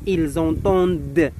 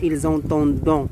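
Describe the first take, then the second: First: The final ending is silent, with no nasal vowel. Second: The final ending is pronounced as a nasal vowel. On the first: The speaker calls it right. "E à la fin" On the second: The speaker calls it wrong. "Ce n'est pas"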